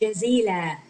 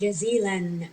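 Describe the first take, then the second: First: The word ends on a vowel without n. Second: The word ends with an added n sound. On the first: The speaker calls it wrong. "we don't pronounce it jazila" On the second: The speaker calls it right. "We pronounce it jazilan. We add noon"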